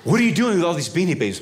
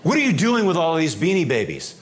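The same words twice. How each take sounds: First: Higher, louder and faster demand; sharper agent demand. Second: Higher and louder demanding question; stern customs agent. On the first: Customs agent presses the traveller, faster louder demand. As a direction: press him hard. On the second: Customs agent to traveller, stern louder question. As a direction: confront the smuggler. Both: Retold or imitated.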